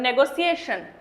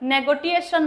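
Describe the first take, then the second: First: The middle consonant is an s sound. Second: The middle consonant is a t sound. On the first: The speaker calls it right. "এখানে টি এর উচ্চারণ কিন্তু সি এর মতো হয়।" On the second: The speaker calls it wrong. "নেগোটিয়েশন নয়"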